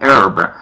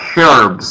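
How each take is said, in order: First: It is said with an American pronunciation. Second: It is said with a British pronunciation. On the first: "the Americans, they pronounce it like herb" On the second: "the British, they pronounce it like herbs"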